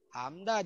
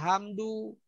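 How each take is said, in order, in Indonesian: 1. Kata ini diakhiri dengan vokal 'a'. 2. Kata ini diakhiri dengan vokal 'u'. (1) "Hamda jangan dibaca hamdu" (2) "jangan dibaca hamdu"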